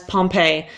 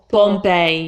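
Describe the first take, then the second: First: It is said with English pronunciation. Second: It is said with Italian pronunciation. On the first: "which in English we would say as Pompeii" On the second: "It's po"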